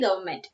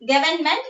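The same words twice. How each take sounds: First: "government" as GUV-uh-ment, first N dropped; silent N. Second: "government" as GUV-en-ment, N audible; sounded N. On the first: Teacher telling pupils how to say it, silent N in "government". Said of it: "So we have to say government". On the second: Teacher introducing the word before correcting it, N sounded in "government". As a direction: keep the first N in "government". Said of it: "N is silent". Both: Shown as a demonstration.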